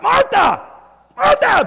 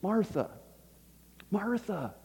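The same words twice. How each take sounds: First: The name is said in a sharp, scolding tone. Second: The name is said in a gentle, calm tone. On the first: The speaker demands attention impatiently. The speaker calls it wrong. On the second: The speaker is caring and kind. The speaker calls it right. "I think the tone in which he said it was"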